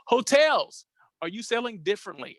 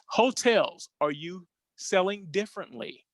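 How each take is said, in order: First: It is said quickly with loose enunciation. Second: It is said slowly with clear enunciation. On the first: The speaker calls it wrong. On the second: The speaker calls it right.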